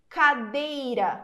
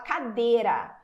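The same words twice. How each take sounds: First: The i glide is fully pronounced. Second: The i glide almost disappears. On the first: The speaker calls it wrong. "não" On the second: The speaker calls it right. "a gente fala cadeira"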